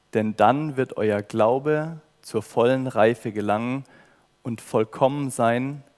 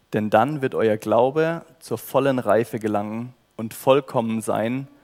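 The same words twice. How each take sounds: The two takes are said the same way.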